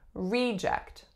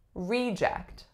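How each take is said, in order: First: The stress is on the first syllable. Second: The same.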